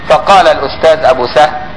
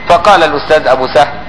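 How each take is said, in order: The two takes are said the same way.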